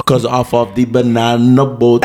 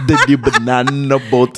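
First: Laughing mock Jamaican accent; joking Jamaican accent, slow. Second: Put-on Jamaican accent; banana boat in a Jamaican lilt. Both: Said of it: "A Jamaican accent?".

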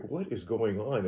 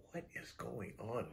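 First: Said in the usual way. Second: Much softer, near-whisper question; hushed alarm. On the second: Retold or imitated. As Terry squeezes her hand, hushed uneasy question. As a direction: barely breathe it out uneasily.

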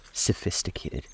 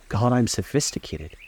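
First: Breathy, scornful whisper of "Sophisticated". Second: "I'm" leaned on, voiced, with a falling end; proud mock stress on "I'm" in "God, I'm sophisticated"; scornful stress. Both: A narrator's reading. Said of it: "she laughed with a thrilling scorn".

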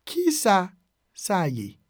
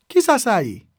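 First: "Ki sa", pause, then "sa ye"; broken into parts. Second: Said in the usual way. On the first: Shown as a demonstration. Teacher modelling a Creole phrase for learners, broken into parts. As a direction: split it in two for learners.

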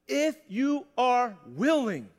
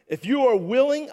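First: IF YOU ARE WILLING at half speed, every word set apart; very slow, measured emphasis on each word; slow, deliberate repeat. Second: Said in the usual way. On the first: Shown as a demonstration. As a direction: draw out each word of "willing" line for weight. Repeats verse slowly for emphasis.

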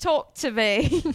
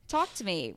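First: Put-on "Talk to Me" drawn out slow and loud in an Australian accent; hammed-up Australian "Talk to Me". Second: Said in the usual way. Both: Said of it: "since I'm talking Australian accent".

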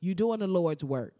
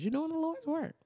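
First: Said in the usual way. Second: Much higher, softer churchy praise; mock church praise. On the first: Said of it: "plain first take". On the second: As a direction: sing out the praise like a church lady. Repeated as mock preacher.

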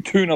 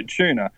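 First: "tuna" said "TOO-nuh"; "tuna" with a hard t, no ch sound; like you guys. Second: Said in the usual way. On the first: Shown as a demonstration. Copying the others' way, "tuna" as "TOO-nuh". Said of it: "I'm saying tuna like you guys". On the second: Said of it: "Well, I say tuna".

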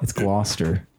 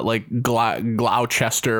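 First: Gloucester in two syllables, GLOSS-ter; correct Gloucester pronunciation. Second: Gloucester read as spelt, GLOW-chester; mispronounced Gloucester. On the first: Shown as a demonstration. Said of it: "Is that what I was pronounced?". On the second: Real, not acted. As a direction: sound out Gloucester slowly as three syllables, glow-ches-ter.

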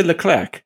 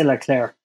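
First: Leclerc with a hard k at the end; sounded final C. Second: Leclerc ending like eclair; silent final C. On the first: Host asking how you say the name, final C sounded. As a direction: pronounce the last c of Leclerc as k. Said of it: "do you say Leclerc?". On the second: Panellist correcting the host on the name, silent final C. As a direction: drop the k sound at the end of Leclerc. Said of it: "No, I say Leclerc". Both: Shown as a demonstration.

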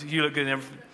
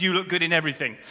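First: Coached answer. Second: Said in the usual way. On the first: Shown as a demonstration. Preacher coaching men on the answer, smoothly. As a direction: deliver "You look good in everything" as the practised line. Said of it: "so what is the right response". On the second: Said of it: "the right response to that question is".

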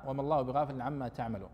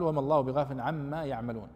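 First: تعملون said with the ta sound, "taʕmalūn"; تعملون with a clear opening ta; reading with ta. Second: يعملون said with the ya sound, "yaʕmalūn"; يعملون with a clear opening ya; reading with ya. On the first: Teacher contrasting تعملون with ta for students. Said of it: "والذي قرأ بالتاء". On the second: Teacher reading يعملون with ya to his class. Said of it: "وقرئ بالياء". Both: Shown as a demonstration.

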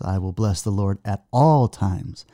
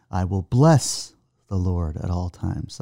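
First: "all" stressed, falling at the end. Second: "bless" leaned on, slow and deliberate; slow recitation hitting "bless"; stress on bless. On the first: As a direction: hit "all" in "at all times". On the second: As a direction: press the word "bless" in "I will bless the Lord". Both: Shown as a demonstration. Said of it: "emphasize different parts of the scripture".

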